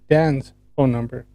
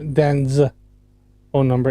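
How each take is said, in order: First: The word Dan's ends with a hissing s sound. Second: The word Dan's ends with a buzzing z sound. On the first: The speaker calls it right. "He's just pronouncing it incorrectly" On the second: The speaker calls it wrong. "Because you pronounced it wrong"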